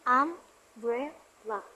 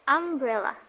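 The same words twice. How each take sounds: First: "umbrella" slowly split into three beats; syllable by syllable. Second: Said in the usual way. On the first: Shown as a demonstration. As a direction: say "umbrella" as um, brel, la with pauses. Breaking word into three syllables.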